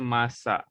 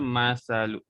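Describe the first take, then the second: First: The middle consonant is an 's' sound. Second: The middle consonant is a 'th' sound. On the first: The speaker calls it wrong. "Jangan baca masa. Kalau masa dah akan jadi huruf sin" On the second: The speaker calls it right. "so kita baca masalu"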